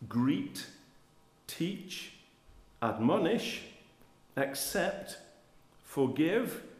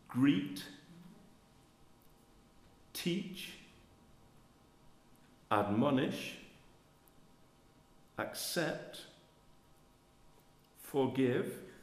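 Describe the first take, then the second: First: It is read at a normal, quicker pace. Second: It is read slowly, word by word.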